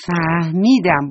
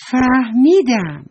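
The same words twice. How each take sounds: First: Said in the usual way. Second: Slow, loud, higher cry of discovery; a doll's thrilled realisation, drawn out; eureka. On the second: Acted. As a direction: stretch out «فهمیدم» like a sudden bright idea. Doll hits on an idea.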